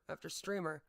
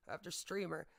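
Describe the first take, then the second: No difference in how they are said.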